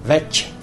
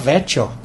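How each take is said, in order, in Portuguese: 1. A consoante do meio é um som de 'ch'. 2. A consoante do meio é um som de 'ch'.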